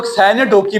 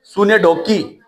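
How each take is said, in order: First: "سینے ڈوکی" opening with "sai" instead of "soo"; alternative pronunciation. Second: "سونے ڈوکی" said with an opening "soo-nay"; correct pronunciation. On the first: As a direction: say "سینے ڈوکی" as sai-nay DOH-kee. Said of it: "کچھ لوگ سینے ڈوکی بھی پڑھاتے ہیں". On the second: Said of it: "اس کی جو پروننسیشن ہے نا". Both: Shown as a demonstration.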